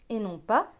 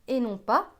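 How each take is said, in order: No difference in how they are said.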